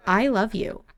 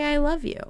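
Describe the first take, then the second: First: "I love you" in a near-usual, earnest voice; understated heartfelt "I love you"; sincere declaration. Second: High, cooed "I love you"; pitched-up, sweet preview of the line; gushing declaration. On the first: Acts the declaration to a brother. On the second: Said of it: "he's gonna say". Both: Acted.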